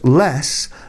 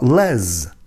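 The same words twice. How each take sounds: First: It sounds like the start of Lester. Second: It sounds like the start of Leslie. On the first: The speaker calls it right. "Being a derivative of Lester and not Leslie, the abbreviated form of this name is pronounced Les" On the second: The speaker calls it wrong. "not Les"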